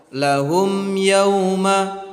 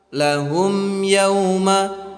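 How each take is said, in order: No difference in how they are said.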